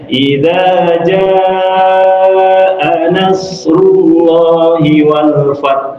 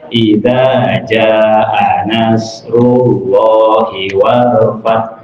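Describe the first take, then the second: First: The drawn-out vowel is held for four counts. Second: The drawn-out vowel is held for two counts. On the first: The speaker calls it right. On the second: The speaker calls it wrong.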